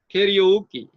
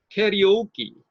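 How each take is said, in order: First: The stress falls on the first and third syllables. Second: The stress falls on the first and third syllables.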